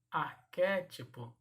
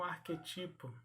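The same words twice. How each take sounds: First: "Arquétipo" said ar-QUÉ-tipo; stress on QUÉ. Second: "arquetipo" said arque-TI-po; stressed TI in "arquetipo"; wrong-form demo. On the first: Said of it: "e não arquetipo". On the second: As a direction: hit TI in "arquetipo". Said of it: "e não". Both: Shown as a demonstration.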